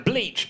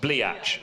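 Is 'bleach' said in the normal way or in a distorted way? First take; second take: normal; distorted. First: The word is said the normal way. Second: The word is distorted, like 'bliatch'.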